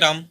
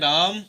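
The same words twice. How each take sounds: First: The name is said plainly with a short vowel. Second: The name is called out with a long vowel.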